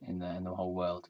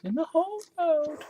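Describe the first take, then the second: First: Said in the usual way. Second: "In the whole world" repeated much higher; mock-grand repeat of "In the whole world", pitched way up; mock grand echo. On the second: Shown as a demonstration. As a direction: echo "In the whole world" as a lofty sing-song.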